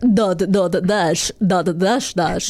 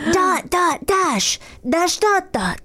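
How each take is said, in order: First: It is said in a Dracula-like voice. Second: It is said in a cute voice.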